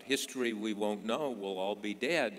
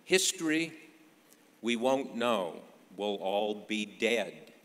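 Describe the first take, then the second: First: Said in the usual way. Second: Retold shrug, opening big and ending drawn out; throwing up hands. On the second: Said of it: "threw 'em in the air and said".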